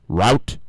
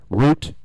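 No difference in how they are said.

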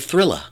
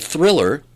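First: It is said in a New York accent, R dropped. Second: It is said with the final R pronounced.

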